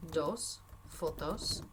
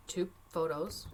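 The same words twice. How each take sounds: First: Dos fotos said slowly, each syllable clear; slow careful Spanish. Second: Said in the usual way. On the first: Shown as a demonstration. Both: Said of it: "so we're gonna say".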